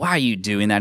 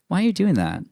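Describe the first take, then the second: First: It sounds critical and disapproving. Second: It sounds curious and interested.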